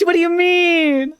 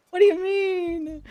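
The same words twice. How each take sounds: First: Very high, slow squeal; mock offended. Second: Mock offended. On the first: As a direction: squeak it in fake outrage.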